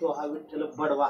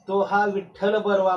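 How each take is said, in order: First: The last word has a d sound. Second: The last word has a clear r sound. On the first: Vitthal is told to be beaten. The speaker calls it wrong. "दात नसती तर" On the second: Vitthal is praised as good. The speaker calls it right. "म्हणता म्हणता"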